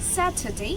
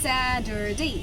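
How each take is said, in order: First: The middle consonant is a clear t sound. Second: The middle consonant is a soft d-like flap. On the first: "একটু আগে আমরা বলেছিলাম" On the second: "এই টি যদি মিডলে থাকে তখন এটি ডি হয়ে যায় আমেরিকান অ্যাকসেন্টে"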